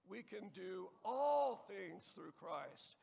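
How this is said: The word "all" is stressed. "and so on"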